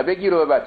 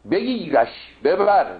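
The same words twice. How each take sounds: First: "بگیر و ببر" quicker, with a linking -o after بگیر; rejected reading. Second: "بگیرش ببر" high and slow, with a clear -ash ending on بگیرش; corrected reading. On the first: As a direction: say "بگیر و ببر" high, joined by -o. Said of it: "نه بگیر و ببر". (خوانش نادرستِ «بگیر و ببر» با واو عطف) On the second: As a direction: stretch "بگیرش", then land on "ببر". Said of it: "این بگیر و ببرم غلطه". (خوانش درستِ «بگیرش ببر»، کشیده و بلند با «ـَش» روشن) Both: Shown as a demonstration.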